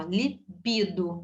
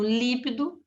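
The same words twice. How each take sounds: First: Slow "libido", middle syllable BI stressed. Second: "líbido" stressed on the first syllable LÍ. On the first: Teacher repeating for students, "libido" slow with stress on BI. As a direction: separate "libido" slowly, landing on BI. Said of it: "a sílaba tônica é no bi". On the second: Teacher showing the common mistake, "líbido" stressed on first syllable LÍ. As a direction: punch LÍ at the start of "líbido". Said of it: "então líbido está errado". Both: Shown as a demonstration.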